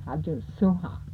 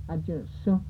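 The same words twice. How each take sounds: First: Ajun Sunha with a final "ha"; last syllable added. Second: Ajun Sun ending on an open "soo"; short form. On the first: Teacher showing the last syllable, Ajun Sunha ending in "ha". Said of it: "last syllable". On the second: Teacher showing dishes by itself, Ajun Sun cut before "ha". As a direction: say Ajun Sun without the final "ha". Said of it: "just say dishes by itself". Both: Shown as a demonstration.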